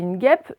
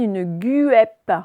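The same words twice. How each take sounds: First: The U after the G is not pronounced. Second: The U after the G is pronounced aloud. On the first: The speaker calls it right. "Le U, il est muet" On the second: The speaker calls it wrong. "Est-ce que je dis une guêpe? Non"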